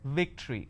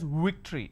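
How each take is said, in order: First: It begins with a lip-biting v sound. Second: It begins with a rounded-lip w sound. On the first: The speaker calls it right. "you need to bite your lower lip. It's victory" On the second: The speaker calls it wrong. "They pronounce this as victory"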